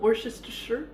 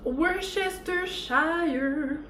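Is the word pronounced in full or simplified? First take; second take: simplified; full. First: The word is pronounced in a simplified form. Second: The word is pronounced with all its syllables.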